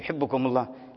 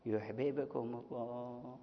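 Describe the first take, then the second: First: The two b sounds are merged into one doubled b. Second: The two b sounds are pronounced separately, drawn out. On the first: "يمكن يقول يحبكم الله" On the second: "مدها هكذا وفك الإدغام"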